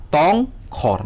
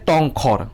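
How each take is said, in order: First: "tongkhor" slowly split as tong, khor; syllable by syllable. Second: Said in the usual way. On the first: Shown as a demonstration. Teacher showing students the syllables, "tongkhor" split in two. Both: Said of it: "Kokthor wngkha syllable".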